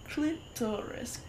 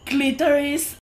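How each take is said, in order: First: The name is said clearly as two words. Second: The name is slurred together into one word.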